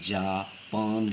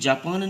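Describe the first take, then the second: First: There is a short break between the two syllables. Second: The syllables run together as one word. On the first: Go and bring betel leaf. "ये जा जाना, पान खाने वाला पान" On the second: The country Japan. "ये Japan नहीं है"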